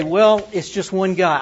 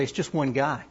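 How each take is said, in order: First: Louder, brushing it off as only one guy; dismissive. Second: Said in the usual way. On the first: Retold or imitated. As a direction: shrug it off as not worth the time. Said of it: "We say".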